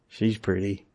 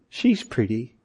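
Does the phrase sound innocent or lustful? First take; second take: lustful; innocent. First: It is said in a suggestive, lingering, lustful tone. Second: It is said in a plain, innocent, admiring tone. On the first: A desire that has turned into lust. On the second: A simple observation of beauty.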